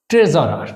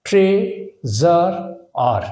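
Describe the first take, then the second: First: Said in the usual way. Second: treasurer slowly as tray, জার, আর; treasurer drawn out piece by piece; syllable by syllable. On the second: Shown as a demonstration. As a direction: pause between the three parts of treasurer. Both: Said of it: "তাহলে কিভাবে করলাম?".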